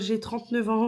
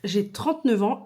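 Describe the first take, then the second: First: It sounds hesitant and embarrassed. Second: It sounds confident and proud. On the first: The speaker is ashamed of the fact. The speaker calls it wrong. "la manière dont tu dis les choses" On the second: The speaker is proud of the fact. The speaker calls it right. "dont je suis super fière"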